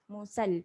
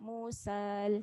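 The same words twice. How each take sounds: First: The vowel is kept short. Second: The vowel is drawn out long. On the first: The speaker calls it right. "Musal pendek je" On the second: The speaker calls it wrong. "Jangan baca Musal, salah"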